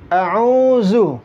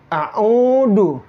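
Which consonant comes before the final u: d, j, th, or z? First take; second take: z; d. First: The final syllable is said with a plain z. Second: The final syllable is said with a plain d. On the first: "Sering juga dibaca zu" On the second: "zu itu dibaca du"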